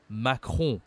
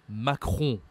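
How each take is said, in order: Both takes have the same delivery.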